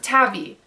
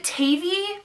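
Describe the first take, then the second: First: "Tavi" said TAV-ee; short-A pronunciation. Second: "Tavi" said TAY-vee; long-A pronunciation. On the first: Reader offering the other option, "Tavi" as TAV-ee. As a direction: say "Tavi" with the vowel of "cat". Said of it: "or is it Tavi?". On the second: Reader wondering how a nickname is said, "Tavi" as TAY-vee. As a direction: say "Tavi" with the vowel of "day". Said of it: "I realized, is it Tavi". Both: Shown as a demonstration.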